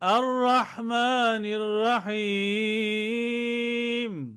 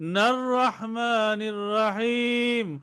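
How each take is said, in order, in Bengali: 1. স্টপের পরে 'a' ধ্বনি দিয়ে এটি নতুন করে শুরু হয়। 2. আগের শব্দ থেকে আসা 'n' দিয়ে এটি শুরু হয়। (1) "হামজা জবর দিয়ে মিলায়ে পড়তে হবে" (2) "ওয়াকফ না করে মিলায়ে পড়ি"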